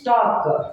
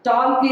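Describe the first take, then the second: First: The L sound is left silent. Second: The L sound is clearly pronounced. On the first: The speaker calls it right. "ಎಲ್ is silent" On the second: The speaker calls it wrong. "ಟಾಲ್ಕ್ is wrong"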